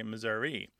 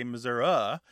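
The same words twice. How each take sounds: First: "Missouri" with a final long ee, miz-OO-ree; Missouri ending ee. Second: "Missouri" with a final schwa, miz-OO-ruh; Missouri ending uh. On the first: Host describing the rest of the state: "Missouri" said miz-OO-ree. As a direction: end "Missouri" on a clear ee. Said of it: "the rest of the state was a bit more likely to say Missouri". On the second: Host describing the northwest: "Missouri" said miz-OO-ruh. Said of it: "a bit more likely to say Missouri". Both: Shown as a demonstration.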